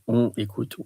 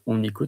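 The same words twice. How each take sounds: First: The words are said separately without linking. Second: The n sound links into the next word. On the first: The speaker calls it wrong. "you don't say on écoute" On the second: The speaker calls it right. "you say on écoute for the fluidity"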